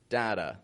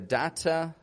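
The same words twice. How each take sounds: First: The middle T is a quick flapped sound. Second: The middle T is a clear, crisp T. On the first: This is how an American accent says it. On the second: This is how the other speaker's accent says it.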